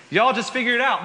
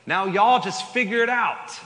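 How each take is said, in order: First: Southern accent hammed up, much higher and louder; overdone Southern accent, high and loud. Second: Put-on God shrugging in a Southern accent, higher and louder; casual Southern accent, voice raised. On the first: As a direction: lay the Southern accent on thick through a laugh. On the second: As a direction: toss it off like a laid-back Southern God. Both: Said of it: "God just had a southern accent in that".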